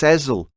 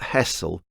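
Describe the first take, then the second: First: The middle consonant is a buzzing Z sound. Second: The middle consonant is a hissing S sound. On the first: The speaker calls it right. "it's [name]. Like that song Liza with a Z" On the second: The speaker calls it wrong. "It's not [name]"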